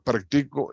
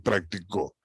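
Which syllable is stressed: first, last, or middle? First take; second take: middle; last. First: The stress is on the middle syllable. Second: The stress is on the last syllable. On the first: "En practico esta es la sílaba tónica" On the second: "Practicó, en co es la última sílaba"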